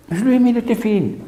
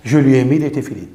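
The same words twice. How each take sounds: First: Higher, stressing lui in téfilines line; emphatic repeat. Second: Said in the usual way. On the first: Shown as a demonstration. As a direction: hit lui with a high pitch. (insistance aiguë sur lui)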